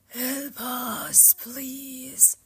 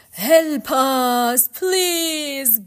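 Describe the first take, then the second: First: High, airy ghostly whisper. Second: High, wailing cry for help; loud ghostly plea. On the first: A narrator's reading. Ghosts clutch at Orpheus, whispering. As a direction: whisper it as a needy plea. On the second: Acted. Ghosts cry to Orpheus for help, wailing loudly. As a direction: call out imploringly, drawn out.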